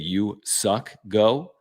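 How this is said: The name is said with an American pronunciation. This is how American broadcasters say it. "a couple of people, including M L B Network, say"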